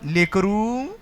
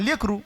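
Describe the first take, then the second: First: The final vowel is drawn out long. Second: The final vowel is short and clipped. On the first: "दुसरा उकार असल्यावर कसं बोलणार ... स्वर लांबणार तो" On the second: "पहिला उकार असता काय कसं बोललो असतं आपण"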